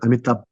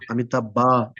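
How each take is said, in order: First: The final vowel is very short. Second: The final vowel is fully pronounced. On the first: The speaker calls it right. "close your mouth... make the a very short" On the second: The speaker calls it wrong. "not like that"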